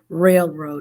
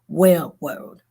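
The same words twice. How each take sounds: First: The R sounds are pronounced clearly. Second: The R sounds are pronounced in a distorted way. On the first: The speaker calls it right. "taught me how to say railroad" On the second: The speaker calls it wrong. "instead of railroad"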